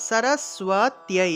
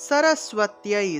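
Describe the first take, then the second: Both takes have the same delivery.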